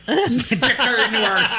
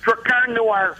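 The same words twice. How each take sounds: First: Slow, high laughing mimic of the accent; laughing copy of a Chicago accent; imitating Chicago accent. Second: Put-on high, punchy Chicago-accented name. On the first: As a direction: echo it laughing in a mock Chicago voice. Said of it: "Got this great Chicago accent". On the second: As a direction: hit it like a Chicago guy. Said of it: "say the words Drakkar Noir in character".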